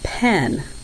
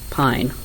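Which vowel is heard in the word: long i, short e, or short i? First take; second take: short e; long i. First: The vowel is a short e sound. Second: The vowel is a long i sound. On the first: The speaker calls it wrong. "they were making it say eh" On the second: The speaker calls it right. "the E tells the I to say its name"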